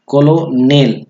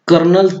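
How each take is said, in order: First: It is read letter by letter as ko-lo-nel. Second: It is said as two syllables, ker-nel. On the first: The speaker calls it wrong. "हा जर word आपण वाचला फक्त कॉलोनेल कॉलोनेल" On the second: The speaker calls it right. "Pronunciation काय आहे कर्नल कर्नल"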